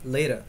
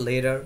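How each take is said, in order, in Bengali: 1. মাঝের ব্যঞ্জনটি নরম D-এর মতো শব্দ। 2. মাঝের ব্যঞ্জনটি নরম D-এর মতো শব্দ।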